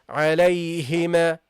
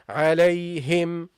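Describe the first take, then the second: First: An extra vowel is added after the final m. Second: The word ends on the m with lips closed. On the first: The speaker calls it wrong. "don't say عليهما" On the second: The speaker calls it right. "say عليهم. Okay, lips closed"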